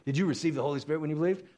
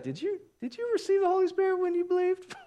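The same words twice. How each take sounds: First: Said in the usual way. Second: Very high, squeaky question; comic high-pitched squeak of a voice; put-on questioning impression. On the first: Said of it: "as opposed to". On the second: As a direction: ask it way up in falsetto. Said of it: "Maybe he said it like that".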